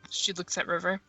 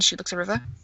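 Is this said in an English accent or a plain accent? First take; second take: plain; English. First: It is spoken in the speaker's plain accent. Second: It is spoken in an English accent.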